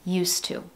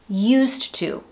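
First: The D sound is dropped, blending into 's'. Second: The D sound is clearly pronounced. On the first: "But you're going to hear used to" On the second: "If you see it in writing, that's what it is"

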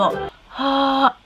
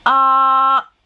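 First: The vowel is breathy, with air leaking. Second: The vowel is firm, with little air leaking.

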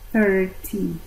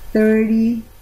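First: British accent, the T is pronounced. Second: American accent, the T is dropped. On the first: "En Inglaterra dicen party 30" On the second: "Y dicen 30 party, los de Estados Unidos"

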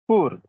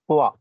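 First: The vowel is a plain 'or' sound. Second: The vowel glides like 'oo-a'. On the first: The speaker calls it wrong. "You generally pronounce poor" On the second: The speaker calls it right. "But its correct pronunciation is poor"

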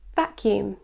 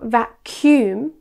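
First: The stress falls on the first syllable. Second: The stress falls on the second syllable. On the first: The speaker calls it right. "it should be vacuum" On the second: The speaker calls it wrong. "Many students incorrectly place the stress on the second syllable. Instead of vacuum"

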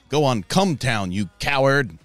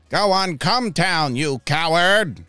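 First: It is said in a plain, natural voice. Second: It is said in a put-on villain character voice.

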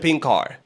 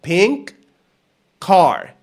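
First: The two words merge into one run of sound. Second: The two words are said fully and separately. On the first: The speaker calls it right. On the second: The speaker calls it wrong.

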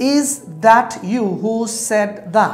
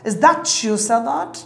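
First: The words 'that' and 'you' are said separately. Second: The words 'that' and 'you' blend into 'chu'.

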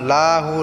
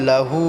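First: The first syllable is drawn out long. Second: The first syllable is kept short. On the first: The speaker calls it wrong. "লাটা টান করে" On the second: The speaker calls it right. "এখানে লাটা টান হবে না"

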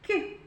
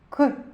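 First: The k sound is soft, palatalized. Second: The k sound is hard, not palatalized. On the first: "Він вимовляється і звучить м'яко" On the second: "Ми вимовляємо і чуємо твердо"

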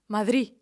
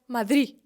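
No difference in how they are said.

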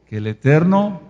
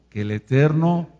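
Both takes have the same delivery.

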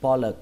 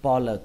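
No difference in how they are said.

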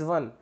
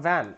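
First: It sounds like the Hindi word for forest. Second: It sounds like the English word van. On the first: The speaker calls it right. "it is van, oxy van" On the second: The speaker calls it wrong. "not van"

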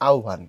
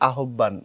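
First: The middle is said as 'obh', giving 'aobhan'. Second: The word is read letter by letter as 'ahban'. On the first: The speaker calls it right. "শুদ্ধ সঠিক উচ্চারণ যেটা সেটা হচ্ছে এরকম" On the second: The speaker calls it wrong. "শাব্দিকভাবে মনে হবে আহ্বান এই টাইপের"

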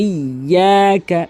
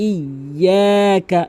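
Both takes have the same delivery.

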